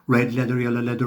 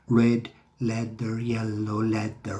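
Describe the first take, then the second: First: The phrase is spoken quickly in rapid succession. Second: The phrase is spoken slowly and carefully. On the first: "try and do that fast" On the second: "I'll say it slowly first"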